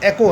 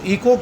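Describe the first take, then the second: First: The word begins with a short 'eh' vowel. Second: The word begins with a long 'ee' vowel. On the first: The speaker calls it right. "इसका सही pronunciation एको है" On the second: The speaker calls it wrong. "ई को गलत pronunciation है"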